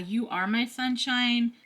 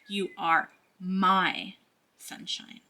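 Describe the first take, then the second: First: It is said in a plain, ordinary way. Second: It is said in a possessive, selfish way. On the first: A simple loving remark. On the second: You belong only to me. "is how it takes that twist, that turn with the devil card"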